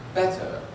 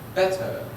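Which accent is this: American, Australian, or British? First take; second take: British; British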